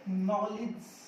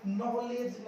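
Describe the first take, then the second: First: नॉलेज with a short ending, "no-lij"; slow नॉलेज, finishing on "lij"; correct नॉलेज. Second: नॉलेज with a full e, "naw-lej"; mispronounced नॉलेज. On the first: Teacher giving learners the right form, नॉलेज slowly as "no-lij". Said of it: "ये होता है नॉलेज". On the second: Teacher rejecting the common form, नॉलेज as "naw-lej". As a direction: sound a clear "lej" ending on नॉलेज. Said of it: "नॉलेज नहीं होता". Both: Shown as a demonstration.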